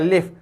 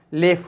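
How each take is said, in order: First: The word ends with a Malay-accented final sound. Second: The word ends in a clear f sound. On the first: The speaker calls it wrong. "itu slang Melayu" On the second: The speaker calls it right. "Matikan dengan fa"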